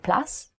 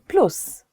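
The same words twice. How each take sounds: First: The word is said with English pronunciation. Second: The word is said with Polish pronunciation. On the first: "in English we say plus" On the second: "in Polish we say plus"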